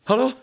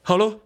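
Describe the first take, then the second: No difference in how they are said.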